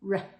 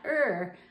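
First: The sound is short and clipped. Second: The sound is drawn out like a vowel. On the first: The speaker calls it right. "R should be a shorter sound" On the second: The speaker calls it wrong. "not ER"

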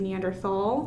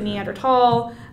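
First: The last syllable starts with a TH sound. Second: The last syllable starts with a plain T sound. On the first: This follows the English spelling of the word. The speaker calls it wrong. "you will still hear people occasionally say Neanderthal" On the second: This follows the original German pronunciation. The speaker calls it right. "Germans pronounce it Neanderthal"

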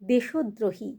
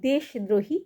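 First: The first part ends with an added 'o' vowel. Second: The first part ends on a bare consonant. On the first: The speaker calls it right. "দেশ আর দ্রোহী মিলে হবে" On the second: The speaker calls it wrong. "কখনোই তোমরা উচ্চারণ করবে না"

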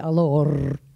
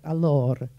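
First: The final R sounds like another language. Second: The final R is clearly finished, Italian style. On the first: The speaker calls it wrong. "don't say allor. It's another language" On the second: The speaker calls it right. "it's important to finish a word that ends in an R, like allor"

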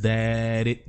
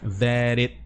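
The two takes are said the same way.

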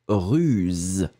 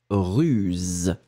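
Both takes have the same delivery.

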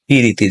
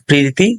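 First: A vowel is inserted between the p and r. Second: The p and r are said together as a cluster.

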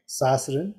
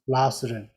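First: The word begins with an s sound. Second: The word begins with an l sound. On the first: This is how most people say it. "Most of the people pronounce Sasrin" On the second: This is how some people say it. "But some people pronounce Lhasrin"

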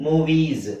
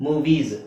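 Both takes have the same delivery.

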